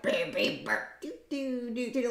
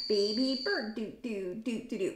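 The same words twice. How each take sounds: First: Demonic parrot impression. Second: Said in the usual way. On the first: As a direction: imitate a parrot's demonic little song, softly. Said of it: "almost demonic sounding". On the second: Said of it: "But his comes out more like".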